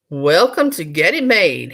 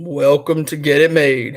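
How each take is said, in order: First: It is read in a normal voice. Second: It is read in a deep voice.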